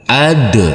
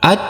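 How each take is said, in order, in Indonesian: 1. Konsonan akhir diakhiri dengan lepasan yang memantul. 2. Konsonan akhir dipotong pendek tanpa lepasan. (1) "harus kita pantulkan untuk huruf dalnya menjadi ad" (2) "Tidak boleh at"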